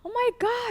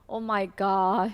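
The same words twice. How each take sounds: First: It sounds surprised. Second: It sounds stressed and annoyed.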